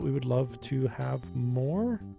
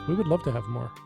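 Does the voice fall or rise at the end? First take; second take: rise; fall. First: The voice rises at the end, like a question. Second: The voice falls at the end, like a statement. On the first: It sounds like a question. The speaker calls it wrong. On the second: It is a plain statement. The speaker calls it right.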